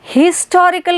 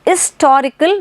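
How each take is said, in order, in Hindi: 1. इस शब्द की शुरुआत 'h' की आवाज़ से होती है। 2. इस शब्द की शुरुआत स्वर की आवाज़ से होती है। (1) "हिस्टोरिकल नहीं है" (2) "आई का साउंड होता है"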